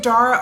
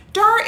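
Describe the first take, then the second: First: Dara said as DAIR-uh; first-syllable EH in Dara. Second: Dara said as DAH-ruh; first-syllable AH in Dara. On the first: Offering a viewer the other option, Dara pronounced DAIR-uh. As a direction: say Dara to rhyme with Sarah. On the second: Asking a viewer how to say her name, Dara pronounced DAH-ruh. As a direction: say Dara with an open "ah", like "car". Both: Shown as a demonstration. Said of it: "make sure we're pronouncing your name right".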